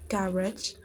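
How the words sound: It is said with a British accent. "for the British English accent is"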